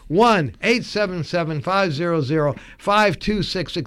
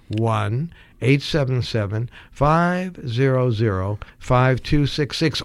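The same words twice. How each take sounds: First: The number is read at normal speed. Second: The number is read slowly.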